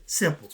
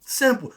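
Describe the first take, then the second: First: Said in the usual way. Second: Simple. said higher and louder, falling hard; simple, repeated with more force. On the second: Shown as a demonstration. Preacher hammering his point to the crowd, emphatic. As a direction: land the word Simple. with weight.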